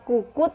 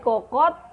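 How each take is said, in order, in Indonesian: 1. Kata ini diucapkan dengan vokal u. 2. Kata ini diucapkan dengan vokal o.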